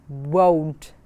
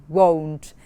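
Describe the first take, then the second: Both takes have the same delivery.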